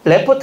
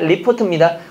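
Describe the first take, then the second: First: The first syllable has the vowel 'e'. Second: The first syllable has the vowel 'i'. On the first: The speaker calls it wrong. "레포트 아닙니다" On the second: The speaker calls it right.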